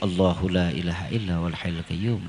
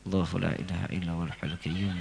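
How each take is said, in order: First: It is recited a little louder. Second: It is recited quietly, almost under the breath. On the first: "Agak kencengin dikit" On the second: "jangan dijaharin bacanya, disir"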